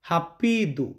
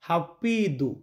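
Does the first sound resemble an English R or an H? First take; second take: H; H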